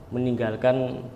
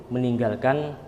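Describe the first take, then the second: The two takes are said the same way.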